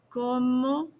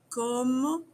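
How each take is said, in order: No difference in how they are said.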